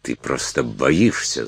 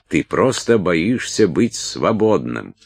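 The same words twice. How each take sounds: First: Said in the usual way. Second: Slower, higher goading repeat; taunting insistence. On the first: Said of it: "заявила она". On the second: A narrator's reading. Салли accuses Уилт of fearing freedom, taunting insistence. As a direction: press the accusation slowly, word by word. Салли повторяет обвинение с нажимом.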